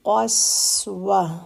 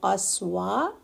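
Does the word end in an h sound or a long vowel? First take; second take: h sound; long vowel. First: The word ends in a soft h sound. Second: The word ends in a long open vowel. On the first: The speaker calls it right. "तो हमने हा साकिन की साउंड देनी है।" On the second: The speaker calls it wrong. "ये अलिफ की साउंड है"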